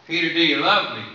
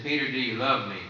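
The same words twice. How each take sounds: First: Louder and higher, pressing harder; pressing the question. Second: Said in the usual way. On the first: Retold or imitated. Jesus pressing Peter a second time, louder and higher. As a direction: ask it again with real urgency, raised up.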